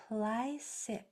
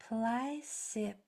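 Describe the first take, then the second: The two takes are said the same way.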